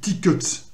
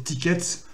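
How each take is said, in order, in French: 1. La deuxième voyelle est un son réduit, un uh. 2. La deuxième voyelle est une voyelle pleine. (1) "normalement, ça se dit tickets. Huts" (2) "moi je prononce pas très bien"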